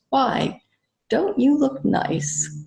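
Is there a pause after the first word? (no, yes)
yes. The first word is set apart by a pause. It is a compliment. "Which is a compliment"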